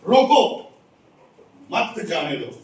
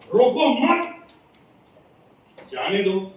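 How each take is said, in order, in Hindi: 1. ठहराव पहले शब्द के ठीक बाद आता है। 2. ठहराव दूसरे शब्द के ठीक बाद आता है। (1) "रोकना है" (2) "रोकना नहीं है, जाने देना है।"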